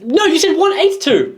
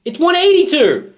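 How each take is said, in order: First: Much higher, hammed-up protest; high-pitched playful accusation; mock outrage. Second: Much higher, hammed-up insistence on "eighty-two"; mock outraged correction. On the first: Hosts bickering over band's number, mock outrage. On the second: Host correcting the band's number, mock outrage. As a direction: hit "eighty-two" in high mock fury.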